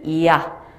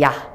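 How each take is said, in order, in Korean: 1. 이 음절은 아주 천천히 길게 늘여서 말해요. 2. 이 음절은 보통 속도로 빠르게 말해요.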